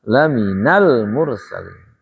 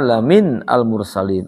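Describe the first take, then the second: First: The words are linked together in one flow. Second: The words are said separately in their base form. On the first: "Cara bacanya" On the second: "Asalnya apa?"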